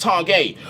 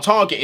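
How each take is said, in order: First: Targett said as "tar-GAY"; corrected pronunciation. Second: Target ending in a hard "get"; rejected pronunciation. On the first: Fan correcting the footballer's name for upset people, corrected pronunciation. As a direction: say Targett French-style, silent t, ending in "gay". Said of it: "some people are getting upset". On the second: Fan quoting the name people object to, rejected pronunciation. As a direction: say Target like the English word, with the final t. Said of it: "it's not Target". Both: Shown as a demonstration.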